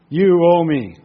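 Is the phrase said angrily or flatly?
angrily. It is said in an angry, demanding tone. The speaker calls it right. "We do it like this. Point your finger"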